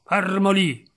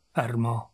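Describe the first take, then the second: First: Higher, firmer repeated order; raised, urgent command; sharp command. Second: Said in the usual way. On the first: Acted. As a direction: order him to hold still.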